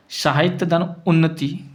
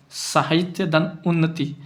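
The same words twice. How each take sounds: The two takes are said the same way.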